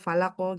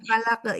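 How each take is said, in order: First: The q is thick and ends in a full o. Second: The q is thin and ends in an e. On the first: The speaker calls it right. "huruf kolkola di kolkolakan falako falako gitu ya" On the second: The speaker calls it wrong. "jangan dibaca falake"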